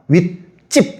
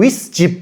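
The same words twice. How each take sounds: First: The second syllable starts with a tense jj sound. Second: The second syllable starts with a plain j sound. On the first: The speaker calls it right. "윗집 이렇게 발음하잖아" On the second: The speaker calls it wrong. "글자만 놓고 보면 쟤는 윗집 이렇게 발음해야 될 거예요"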